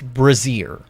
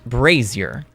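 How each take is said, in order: First: It sounds like the word brassiere. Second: It sounds like the word brazier. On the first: The undergarment word is meant. The speaker calls it wrong. "It is not pronounced" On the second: The fire bowl is meant. The speaker calls it right. "It is pronounced"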